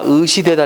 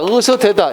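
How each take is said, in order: First: The first two vowels are fronted vowels. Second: The first two vowels are back vowels. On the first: The speaker calls it wrong. "전설모음화 시켜서 의시대다라고 하는 경우 있다" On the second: The speaker calls it right. "이게 맞는 말이야"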